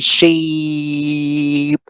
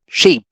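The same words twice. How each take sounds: First: The vowel is held long and drawn out. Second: The vowel is cut short and clipped. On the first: The speaker calls it wrong. "We don't say sheep, right? We cannot sustain the sound as long as we want to" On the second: The speaker calls it right. "We have to shorten it. We have to clip it"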